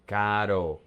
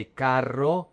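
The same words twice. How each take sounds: First: Caro with a soft, flowing tapped r; one light flick of the tongue in caro; caro, its r like the tt in American butter. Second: Carro with a rolled, trilled rr. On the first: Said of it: "Make it flow". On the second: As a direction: roll the tongue on the rr of carro. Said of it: "if you roll your tongue". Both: Shown as a demonstration.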